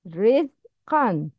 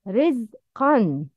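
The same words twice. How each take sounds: No difference in how they are said.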